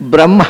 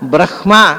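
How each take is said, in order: First: The m sound comes before the h sound. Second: The h sound comes before the m sound. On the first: The speaker calls it wrong. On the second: The speaker calls it right.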